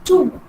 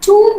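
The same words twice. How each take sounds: First: The final b sound is silent. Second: The final b sound is pronounced. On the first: The speaker calls it right. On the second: The speaker calls it wrong.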